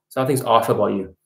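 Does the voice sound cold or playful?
cold. The voice sounds cold and flat. The remark comes across as creepy and unsettling. The speaker calls it wrong. "It looks like a psychopath telling the women that"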